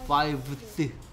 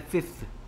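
First: It has a V sound before the th. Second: It has an F sound before the th. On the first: The speaker calls it wrong. "V 소리 나는 애를 F 소리 나는 애로 바꾼" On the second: The speaker calls it right. "그래서 V 소리를 F 소리로 바꾼 거예요"

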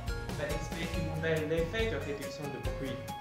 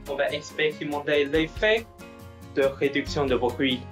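First: The distant voice sounds faint and much quieter. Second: The distant voice sounds clear and full. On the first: The speaker calls it wrong. "on utilise le micro d'une autre marque" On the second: The speaker calls it right. "on utilise le modèle O"

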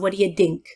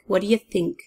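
First: The last word starts with a d sound. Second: The last word starts with a th sound. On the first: The speaker calls it wrong. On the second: The speaker calls it right.

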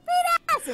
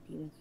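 First: It is said loudly. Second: It is said quietly.

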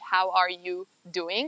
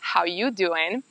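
First: Every word is said, including 'are'. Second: The word 'are' is left out. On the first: "nincs kiejtve az" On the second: "el van harapva"

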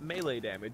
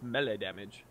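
First: Melee is pronounced the usual way. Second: Melee is pronounced in an odd, unusual way. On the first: "not melee damage" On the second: "why does he keep saying it so weird?"

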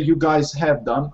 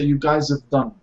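First: The word 'have' is said in full. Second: The word 'have' is reduced to a short 'of' sound. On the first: "So I don't say you guys have done" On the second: "I say you guys have done"

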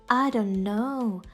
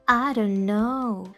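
No difference in how they are said.

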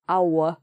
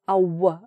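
First: The vowel ends with a w glide. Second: The vowel ends with a w glide.

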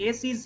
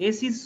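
The two takes are said the same way.

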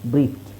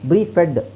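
First: The ending is a short 't' with no extra syllable. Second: The ending is said as a separate 'ed' syllable. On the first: The speaker calls it right. "ಅಲ್ಲಿ ಏನು ಇಲ್ಲೆಲ್ಲ ಈ silent" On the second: The speaker calls it wrong. "ನಿಮಗೆ ಬ್ರೀಫೆಡ್ ಅಂತ ಹೇಳಲ್ಲ"

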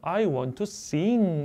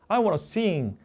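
First: Want and to are said as separate full words. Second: Want and to merge into the reduced form wanna.

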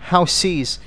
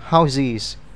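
First: The middle consonant is a hissing s sound. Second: The middle consonant is a buzzing z sound. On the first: The speaker calls it wrong. "chúng ta không đọc là houses" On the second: The speaker calls it right. "phải đọc là houses. Âm S biến thành âm Z"

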